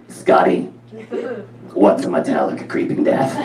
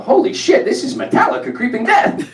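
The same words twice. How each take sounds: First: Flatlined, croaky mom voice; imitating a friend's flat-voiced mother; Rona. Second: High-pitched excited outburst; retold tipsy outburst; blurted out. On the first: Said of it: "this is how she talked". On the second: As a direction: blurt it out like a sudden revelation. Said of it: "I just blurt out".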